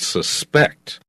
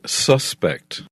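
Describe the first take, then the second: First: The stress is on the second syllable. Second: The stress is on the first syllable. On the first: It is a verb meaning to believe someone is guilty. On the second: It is a noun meaning a person thought guilty.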